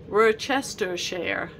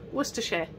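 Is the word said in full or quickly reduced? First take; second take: full; reduced. First: Every syllable is said slowly and in full. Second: The word is said quickly with its syllables reduced. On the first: The speaker calls it wrong. "It's not Worcestershire" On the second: The speaker calls it right. "Say it quickly"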